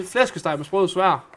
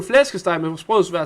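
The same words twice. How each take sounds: First: Flæskesteg med sprød svær said slowly in Danish, stress on sprød; slow Danish demo. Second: Flæskesteg med sprød svær på dansk; Danish pronunciation. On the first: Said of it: "If you just say". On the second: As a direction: show how a Dane says Flæskesteg med sprød svær. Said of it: "Say that". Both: Shown as a demonstration.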